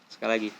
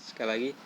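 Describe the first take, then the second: No difference in how they are said.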